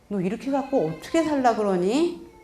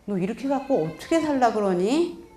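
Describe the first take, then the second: First: The tone is soft and concerned. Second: The tone is soft and concerned.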